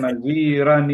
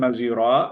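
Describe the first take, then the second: First: The word ends in an n sound, linked onward. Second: The word ends on a vowel, with a stop. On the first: The reciter continues into the next verse without stopping. "nunnya itu kan dibaca kalau tidak berhenti" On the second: The reciter stops at the end of the verse. "kalau misalnya Pak Suhendar berhenti"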